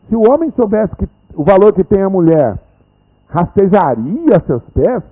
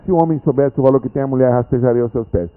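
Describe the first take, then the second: First: It is said with a questioning intonation. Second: It is said with a flat statement intonation. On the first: It is doubtful whether the man would crawl. The speaker calls it right. "Aqui é assim, ó" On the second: The man would certainly crawl at her feet. The speaker calls it wrong. "não é essa a entonação"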